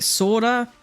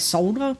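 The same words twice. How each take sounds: First: It is said the American way. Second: It is said the non-American way.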